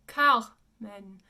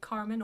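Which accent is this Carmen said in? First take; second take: French; general English. First: It is said in French with an open final vowel. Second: It is said in a general English accent. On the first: The speaker calls it right. "the French pronunciation is Carmen. And it's an open men" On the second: The speaker calls it wrong. "We would say Carmen"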